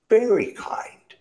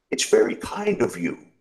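First: Very kind lifted much higher and louder; heartfelt thanks. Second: Grateful road sweeper. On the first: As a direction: repeat very kind with more feeling. Repeats thanks more strongly. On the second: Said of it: "he said". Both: Acted.

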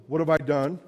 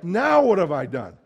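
First: Said in the usual way. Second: "Now" hit louder, falling to an exasperated "done"; stress on NOW. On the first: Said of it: "And not, it wasn't". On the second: Shown as a demonstration. Preacher shows the right reading, stress on "Now". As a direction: lean on "Now" like it keeps happening. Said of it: "But it's like".

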